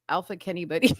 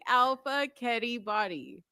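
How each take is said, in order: First: The words are said fast, run together. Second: The words are said slowly, with pauses between.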